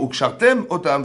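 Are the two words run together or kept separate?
separate. The two words are clearly separated from each other. It means tying them on. The speaker calls it right. "On découpe les mots"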